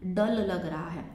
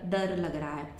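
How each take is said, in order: First: The first word starts with an L sound. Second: The first word starts with an R sound. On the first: The speaker calls it wrong. "जहां र आ रहा है ना उसको वो ल बोल रहा है" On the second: The speaker calls it right. "वो ऐसे नहीं बोलेगा"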